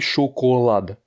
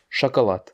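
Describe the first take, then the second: First: The unstressed vowels sound like a full O. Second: The unstressed vowels sound like an A. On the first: The speaker calls it wrong. "ça s'écrit chocolade" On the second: The speaker calls it right. "mais ça se prononce chocolat, parce que les O ne sont pas accentués"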